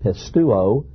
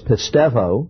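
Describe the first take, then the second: First: The letter is said as a u vowel. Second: The letter is said as a v consonant. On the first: "I was taught in Greek class in college, you pronounce it pistuo" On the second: "Greeks pronounce a U as a V"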